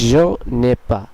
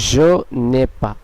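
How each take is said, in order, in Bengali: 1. 'ne' ও 'ai' একসাথে জুড়ে দেওয়া হয়। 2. 'ne' ও 'ai' একসাথে জুড়ে দেওয়া হয়।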